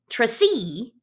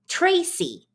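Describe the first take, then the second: First: The stress is on the second syllable. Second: The stress is on the first syllable. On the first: The speaker calls it wrong. "if we put the stress on the second syllable" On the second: The speaker calls it right. "most names in English stress the first syllable"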